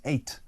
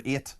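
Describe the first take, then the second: First: "eight" in a modified accent, away from usual Northern Irish; modified accent pronunciation. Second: Said in the usual way. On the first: Shown as a demonstration. Presenter showing listeners how they changed it abroad, "eight" in modified accent. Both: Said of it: "is not the way I usually speak".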